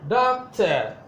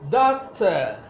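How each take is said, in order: No difference in how they are said.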